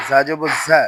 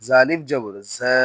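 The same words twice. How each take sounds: First: ঝা with a short a; no stretch. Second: ঝা with a long a; ঝা held long; stretched vowel. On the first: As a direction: cut ঝা short. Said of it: "তখন কোথাও টান দিব না". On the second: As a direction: draw out ঝা. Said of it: "জবরে আমরা টান দিব". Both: Shown as a demonstration.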